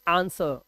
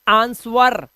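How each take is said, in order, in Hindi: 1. w की आवाज़ मौन रहती है। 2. w की आवाज़ बोली जाती है। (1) "वी से आंसर" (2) "वी कैन नॉट से आंसवर"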